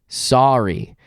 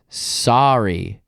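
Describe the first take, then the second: The two takes are said the same way.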